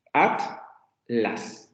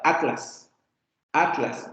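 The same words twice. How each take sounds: First: "Atlas" split as at; separado at-las. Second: "Atlas" with t and l joined in one onset, a-tlas; tl junta. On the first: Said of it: "ellos van a separar así". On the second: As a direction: say "Atlas" unbroken, tl released together. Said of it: "esto solamente sería una sílaba". ("Atlas" seguido, con la tl junta: a-tlas) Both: Shown as a demonstration.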